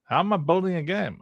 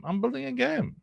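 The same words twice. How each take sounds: First: High-pitched, incredulous question; higher, playful disbelief; incredulous echo. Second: Very high, held squeaky pitch; mock-indignant high-pitched reply. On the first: Acted. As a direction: throw the question back in mock disbelief. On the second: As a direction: squeal the answer in a high, level tone. Answers the echoed question, mock indignant.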